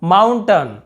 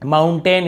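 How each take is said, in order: First: माउंटेन ending as "tun"; short अ ending. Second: माउंटेन with a clear "tain"; full "ten" ending. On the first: Teacher showing the rule, माउंटेन as "mountun". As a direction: reduce the last vowel of माउंटेन to अ. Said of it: "अ उच्चारण हो रहा है". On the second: Teacher giving the common reading, माउंटेन as "moun-tain". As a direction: end माउंटेन on a long ए. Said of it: "इसे भी बोलिए". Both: Shown as a demonstration.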